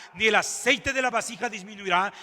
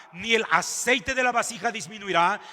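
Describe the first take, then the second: Both takes have the same delivery.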